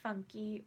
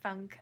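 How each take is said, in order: First: The name ends with a pronounced final vowel. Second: The name ends without any final vowel sound.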